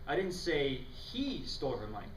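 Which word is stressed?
say. The stress falls on the word say.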